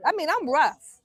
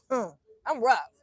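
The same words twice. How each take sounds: First: Proud claim. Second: Wry aside. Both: Real, not acted.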